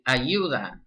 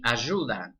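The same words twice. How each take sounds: First: The middle consonant sounds like English y. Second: The middle consonant sounds like English sh. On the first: "This would be" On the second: "In Argentina, it would be"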